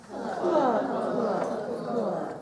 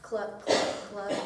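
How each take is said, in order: First: Teacher acting out the sad chicken for the class, clucking. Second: Said in the usual way. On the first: Shown as a demonstration. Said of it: "Can you sadly say, 'Cluck, cluck, cluck'". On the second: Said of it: "Can you sadly say".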